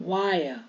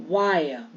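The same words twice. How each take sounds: No difference in how they are said.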